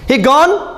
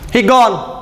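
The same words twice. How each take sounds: First: It is said as a question. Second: It is said as a plain statement.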